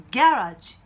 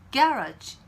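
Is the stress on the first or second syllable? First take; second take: first; first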